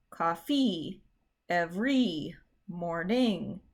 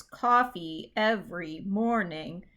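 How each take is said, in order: First: Cof-FEE ev-REE mor-NING, drawn out slowly; slow COFFEE EVERY MORNING, weight on each last syllable; second-syllable stress. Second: COF-fee EV-ery MOR-ning, slow and natural; slow COFFEE EVERY MORNING, each leading beat strong; first-syllable stress. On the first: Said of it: "hope you can hear that the first one is correct". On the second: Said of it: "the first one is correct". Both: Shown as a demonstration.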